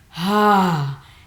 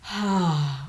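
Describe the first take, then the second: First: It is said loudly and forcefully. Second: It is said softly and gently.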